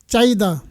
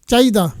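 The two takes are said the same way.

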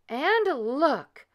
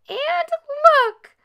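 First: It is cried in a medium voice. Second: It is squealed in a small voice.

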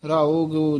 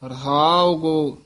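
First: The phrase is pronounced in a loose, careless way. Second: The phrase is pronounced in a careful, exact way. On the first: This is how ordinary readers commonly say it. The speaker calls it wrong. "ਆਮ ਜਿਹੜੇ ਪਾਠੀ ਸਿੰਘ ਹੁੰਦੇ ਆ ... ਇਸ ਤਰ੍ਹਾਂ ਬੋਲਦੇ ਹਨ" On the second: This is how it should be pronounced. The speaker calls it right. "ਪਰ ਧਿਆਨ ਨਾਲ ਦੇਖੋ ... ਇਸ ਤਰ੍ਹਾਂ ਉਚਾਰਨ ਕਰਨਾ ਹੈ"

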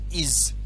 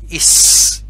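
First: The word ends with a buzzing z sound. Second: The word ends with a hissing s sound. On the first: The speaker calls it right. "IS disebut dengan bunyi IZ" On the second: The speaker calls it wrong. "Bukan is"

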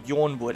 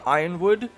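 First: The name begins with a 'yorn' sound. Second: The name begins with the sound of 'iron'. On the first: This is the speaker's own way of saying it. "I just say Yornwood" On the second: This is the common way others say it. "You could say Ironwood"

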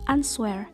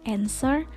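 First: The w sound is heard. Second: The w sound is silent. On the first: The speaker calls it wrong. "bukan answer" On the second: The speaker calls it right. "huruf W itu diabaikan. Sehingga pengucapan yang tepat adalah answer"

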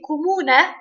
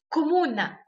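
First: The word ends with an 'e' sound. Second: The word ends with an 'a' sound. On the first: The speaker calls it right. "ده النطق الصح" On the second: The speaker calls it wrong. "فالأعم بيقولوا كومونا"

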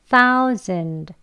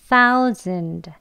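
The two takes are said the same way.

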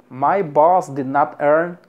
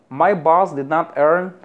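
No difference in how they are said.

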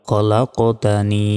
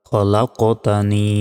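The two takes are said the same way.

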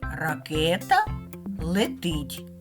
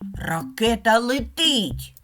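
First: It is said with a plain falling statement tune. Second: It is said with a lively exclaiming tune. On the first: The rocket is flying, stated as a fact. "Два слова, як на схемі" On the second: Expresses excitement that the rocket is flying. "А зараз стоїть знак оклику"

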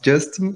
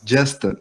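First: The name has a Brazilian Portuguese pronunciation. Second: The name has a native English pronunciation. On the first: This is how a Brazilian fan said the name. The speaker calls it wrong. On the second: This is how the name is really said. The speaker calls it right.

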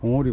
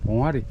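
First: The second syllable has an 'o' vowel. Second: The second syllable has an 'a' vowel. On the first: The speaker calls it right. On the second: The speaker calls it wrong.

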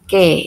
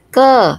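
First: The vowel is a clear front e sound. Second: The vowel is a central schwa sound. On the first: "Kalau taling, taling di pelafalannya e ... Jadi ini aksara ke dibaca ke" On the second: "ini kalau pepet itu seperti wulu ... ini dibaca ke"

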